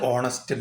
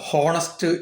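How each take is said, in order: First: The word begins with a vowel sound. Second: The word begins with an h sound. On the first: The speaker calls it right. "എച്ച് silent ആവുമ്പോൾ ഓ ആണ് sound ആയി വരിക" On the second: The speaker calls it wrong. "നമ്മൾ ഇങ്ങനെ വായിക്കാറുള്ളത് ഹോണസ്റ്റ് എന്നാ വായിക്കാറുള്ളത്"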